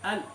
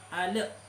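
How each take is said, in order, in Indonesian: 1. Bunyi l ditahan tanpa pantulan. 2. Bunyi l dipantulkan. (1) "latihan al ditahan dulu" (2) "seperti apa kesalahannya"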